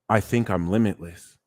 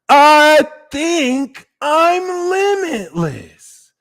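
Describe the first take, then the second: First: It is said plainly, without much feeling. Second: It is said with deep, heartfelt feeling. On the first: The speaker calls it wrong. "you're not just saying" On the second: The speaker calls it right. "adding power to that word"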